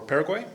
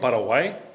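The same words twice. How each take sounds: First: It is pronounced the English way. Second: It is pronounced the Spanish way.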